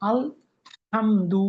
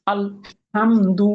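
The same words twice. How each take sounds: First: আল stretched with a rise before হামদু; Arabic sukun. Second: আল হামদু with the ল of আল held silent-stopped, breath only; আল clipped short, হামদু loud and clear; Arabic sukun. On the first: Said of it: "এই জন্য আল". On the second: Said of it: "কেউ যদি এখানে আলটা মানে শব্দটা zero করতে না পারে". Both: Shown as a demonstration.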